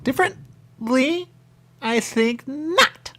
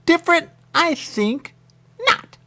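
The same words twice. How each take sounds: First: High, slow, drawn-out snooty retort; mock haughty reply. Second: Loud squeaky snooty retort; mock haughty reply. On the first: Quoting him mocking the word, high and drawn out. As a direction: stretch it out, loud and high, like a prim snob. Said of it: "He said". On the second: Replaying his snooty retort, loud and squeaky.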